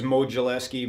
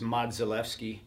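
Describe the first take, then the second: First: The name is said with an English pronunciation. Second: The name is said with a Polish pronunciation. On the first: This is how most people say it. "everybody says Modzelewski" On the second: This is how it is said in the original language. "in Polish it's Modzelewski"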